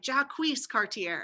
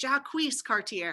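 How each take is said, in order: First: The name is said the way it is spelled. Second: The name is said the way it is spelled.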